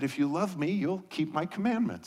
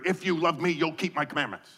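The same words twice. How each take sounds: First: It is said in a warm, gentle tone. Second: It is said in a stern, scolding tone.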